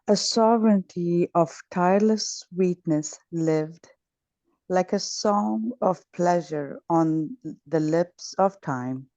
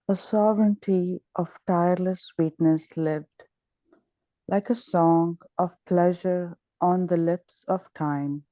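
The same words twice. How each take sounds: First: It is read with great joy. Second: It is read plainly, without much joy.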